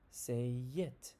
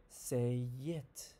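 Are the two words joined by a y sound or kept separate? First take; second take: joined; joined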